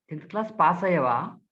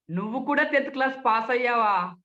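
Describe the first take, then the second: First: Said in the usual way. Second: Sarcastic. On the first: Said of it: "సహజంగా". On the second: Shown as a demonstration. Speech trainer needles someone who passed tenth class, sarcastic. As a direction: needle them with feigned disbelief. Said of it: "వ్యంగ్యంగా".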